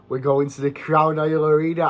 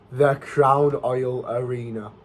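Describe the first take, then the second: First: Said in the usual way. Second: Nostalgic slow savour. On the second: Shown as a demonstration. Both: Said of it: "I've not said that in ages".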